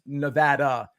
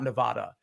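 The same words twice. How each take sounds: First: The stressed vowel sounds like the one in 'dad'. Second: The stressed vowel sounds like the one in 'Dodd'. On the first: "pronounced like dad" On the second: "not Dodd"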